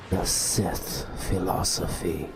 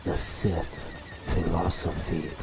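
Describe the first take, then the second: No difference in how they are said.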